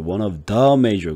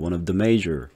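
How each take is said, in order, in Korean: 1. 단어를 하나하나 따로 끊어서 말해요. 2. 단어들이 한 흐름으로 자연스럽게 이어져요. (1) "그러지 말고" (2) "이런 식으로 가면 돼요. 그러니까 후루루 넘어가요"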